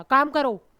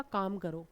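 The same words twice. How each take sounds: First: Loud, stern order; angry command. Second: Soft, lower, gentle ask; loving request. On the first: Teacher giving an angry order to a student. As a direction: snap the order like a scolding teacher. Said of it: "एक में मैं गुस्से से बोल रही हूँ". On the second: Teacher gently asking a student to work. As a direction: coax it kindly like a fond teacher. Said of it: "एक में मैं प्यार से बोल रही हूँ". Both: Shown as a demonstration.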